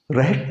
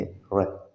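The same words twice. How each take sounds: First: Said in the usual way. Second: "रैट" cut off as "ra"; softer "रैट" with no T release; silent final T. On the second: Shown as a demonstration. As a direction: stop "रैट" before the T. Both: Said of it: "रैट नहीं कहेंगे".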